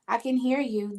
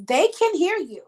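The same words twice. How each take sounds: First: Said in the usual way. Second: They can hear you with a strong push on can, raised and louder; emphatic, higher and louder. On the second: Real, not acted. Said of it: "restates the spirit's message emphatically".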